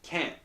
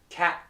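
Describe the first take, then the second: First: The vowel is nasalized, with air through the nose. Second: The vowel is oral, without air through the nose. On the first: The speaker calls it right. "but instead it's can't" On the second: The speaker calls it wrong. "if I don't, and I read this, I go cat"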